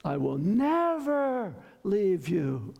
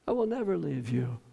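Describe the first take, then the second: First: NEVER stretched long, arching up and falling; emphatic NEVER. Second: Said in the usual way. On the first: Shown as a demonstration. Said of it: "emphatically, fist on the pulpit".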